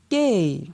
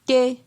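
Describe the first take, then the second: First: The syllable is said on a falling tone. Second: The syllable is said on a mid tone. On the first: "Ton descendant" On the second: "Ton moyen"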